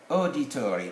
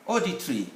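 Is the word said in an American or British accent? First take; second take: American; British. First: It is said in an American accent. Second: It is said in a British accent. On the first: "But in American" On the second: "but in British"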